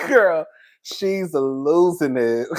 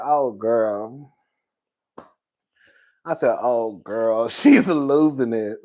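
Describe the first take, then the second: First: Said in the usual way. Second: Low drawl. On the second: Retold or imitated.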